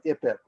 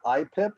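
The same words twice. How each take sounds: First: "I pip" said as "ippip", short "ih"; usual local pronunciation. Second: "I pip" said as "eye-pip", like iPhone; Apple-style pronunciation. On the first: Explaining what the rest of us say, short-vowel pronunciation. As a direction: start "I pip" with a short "ih", as one word. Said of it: "the rest of us call it". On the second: Explaining the acronym to colleagues, Apple-style long "eye". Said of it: "people who have Apple phones call it". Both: Shown as a demonstration.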